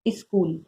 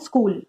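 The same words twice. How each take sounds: First: An extra vowel is added before the s sound. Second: The word starts directly with the s sound. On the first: The speaker calls it wrong. "हमने उसके आगे एक extra स्वर लगा दिया" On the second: The speaker calls it right. "वर्ड क्या है स्कूल"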